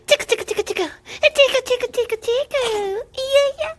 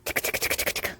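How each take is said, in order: First: Playful squeaky coo while tickling; squeaky tickle talk. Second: Soft breathy whisper, barely voiced; hushed teasing whisper before the tickle. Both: Real, not acted. Tickling the baby.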